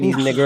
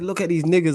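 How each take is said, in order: First: The last word ends in a hard R. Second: The last word ends in a plain vowel. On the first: The speaker calls it right. "He had that extra E R on the end" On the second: The speaker calls it wrong. "didn't say it like that"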